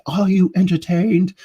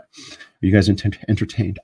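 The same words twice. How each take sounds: First: High, loud mock-epic cry; pitched far up, playful grandstanding; theatrical shout. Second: Said in the usual way. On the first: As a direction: call it out to a whole arena, hammed up. Movie-style repeat of the question.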